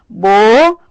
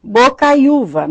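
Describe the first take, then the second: First: "bocaiúva" split into four syllables with long pauses. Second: Said in the usual way. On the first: Shown as a demonstration. Teacher separating the syllables for students, "bocaiúva" syllable by syllable. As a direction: say "bocaiúva" as bo, cai, u, va, each on its own. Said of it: "Na separação de sílaba".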